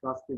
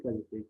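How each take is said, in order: First: "Gazete" shortened to gaste; misspelt form. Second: Said in the usual way. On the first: Shown as a demonstration. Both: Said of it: "Gazete değil".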